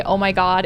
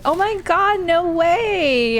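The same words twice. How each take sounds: First: Said in the usual way. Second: Put-on much higher, gushing Valley Girl excitement; Valley Girl "oh my God, no way" pitched way up; excited Valley Girl. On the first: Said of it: "and I say". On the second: Shown as a demonstration. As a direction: squeal it like a thrilled Valley Girl. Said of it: "When I get excited".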